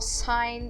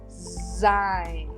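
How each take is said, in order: First: The word begins with a hissing s sound. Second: The word begins with a buzzing z sound. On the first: The speaker calls it wrong. "por que, que eu não falo sein" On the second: The speaker calls it right. "ele obtém o som de Z, ok? Então eu digo sein"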